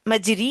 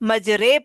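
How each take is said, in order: First: The word ends in an 'ee' vowel. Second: The word ends in an 'ay' vowel. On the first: This is the reading by ordinary Arabic rules. "तो वर्ड तो मजरी मजरी है" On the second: This is the special Quranic reading of this word. "लेकिन उसको मजरे पढ़ते हैं अमाला करते हुए"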